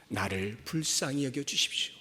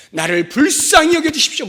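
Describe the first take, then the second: First: Low, soft prayer of supplication; hushed plea. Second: Loud, high-pitched cry for mercy; cried-out plea. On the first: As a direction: plead quietly and low. Quiet take before the cried-out plea. (낮고 조용한 간구) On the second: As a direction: cry out louder to be heard. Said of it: "더 소리를 지르게 되어 있는". (소리 높여 부르짖는 간구) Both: Acted.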